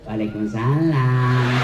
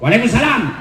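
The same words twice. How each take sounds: First: It is said in a soft, seductive voice. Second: It is said in a firm, businesslike voice. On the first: The reply invites the caller's desire. The speaker calls it wrong. "jangan membuat suaramu menggoda" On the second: The reply keeps the caller at a distance. The speaker calls it right. "yang tegas"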